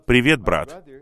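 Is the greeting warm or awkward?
warm. The greeting sounds warm and affectionate.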